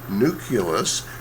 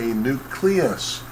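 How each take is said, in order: First: The word is said like nuc-u-lus. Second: The word is said like nuc-le-us. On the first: The speaker calls it wrong. "this is not a nucleus" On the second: The speaker calls it right. "this is a nucleus"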